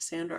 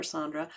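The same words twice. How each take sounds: First: Sandra, first syllable rhyming with "hand"; first pronunciation option. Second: Sandra with an open "ah" in the first syllable; alternative pronunciation. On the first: Host offering viewers one way to say the name, Sandra with short A. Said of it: "I don't know if it's pronounced". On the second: Host offering viewers the other way to say the name, Sandra as SAHN-druh. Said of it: "pronounced Sandra or Sandra". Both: Shown as a demonstration.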